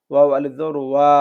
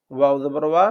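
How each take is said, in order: First: Last ওয়া held long; madd letter. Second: Said in the usual way. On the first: Shown as a demonstration. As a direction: stretch the final ওয়া for one alif. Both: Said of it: "এগুলোই মূলত হচ্ছে মদের হরফ".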